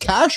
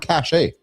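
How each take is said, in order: First: It is one syllable, ending in 'sh'. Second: It is two syllables, ending in 'ay'. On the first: "is it Cash" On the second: "or Cash A?"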